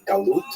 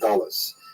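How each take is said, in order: First: It is said in standard Hebrew, ending in t. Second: It is said in Ashkenazi style, ending in s.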